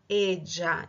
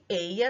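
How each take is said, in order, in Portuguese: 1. É dito com sotaque argentino. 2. É dito com sotaque não argentino.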